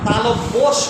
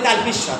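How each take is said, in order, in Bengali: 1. প্রথম শব্দটি 'talobbo' এর মতো শোনায়। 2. প্রথম শব্দটি 'talpis' এর মতো শোনায়। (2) "আমরা বলি তালপিস স, তালপিস স নয়"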